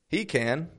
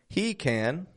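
No difference in how they are said.

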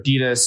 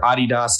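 First: The brand name is pronounced the American way. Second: The brand name is pronounced the European way.

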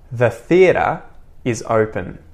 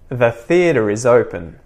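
First: Each word is said separately, without a linking R. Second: The words run together with a linking R. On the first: "first unlinked or unconnected"

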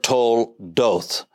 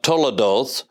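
First: No vowel is heard after the L. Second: An extra vowel is heard after the L. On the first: The speaker calls it right. "it is toldoth" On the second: The speaker calls it wrong. "it's not toledoth"

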